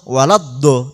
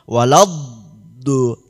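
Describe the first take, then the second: First: The consonant is released quickly without holding. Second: The consonant is held and drawn out. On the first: The speaker calls it wrong. "bukan langsung walad do" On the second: The speaker calls it right. "Jadi kados wonten memanjangkan"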